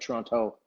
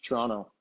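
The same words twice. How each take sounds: First: The last T sound is clearly pronounced. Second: The last T sound is dropped. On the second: "that last T isn't there. It's Toronto"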